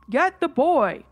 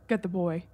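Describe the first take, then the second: First: Loud, insistent call; much louder. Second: Low breathy rasp, barely voiced; a ghostly raspy whisper from downstairs; raspy wispy voice. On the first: Retold or imitated. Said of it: "It was much louder this time". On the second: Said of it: "in a very raspy, wispy voice".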